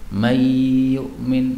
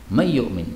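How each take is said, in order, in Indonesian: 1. Huruf n menyatu dengan y dengan dengung. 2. Huruf n menyatu dengan y tanpa dengung. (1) "Ini kan biasanya kan mendengung kan?" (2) "enggak harus mendengung"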